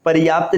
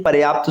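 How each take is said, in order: First: पर्याप्त said as "pariyaapt"; wrong added vowel. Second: पर्याप्त said as "paryaapt"; correct form. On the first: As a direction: slip an i after r in पर्याप्त. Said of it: "नहीं". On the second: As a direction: go from r straight to y in पर्याप्त. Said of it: "शुद्ध होगा". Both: Shown as a demonstration.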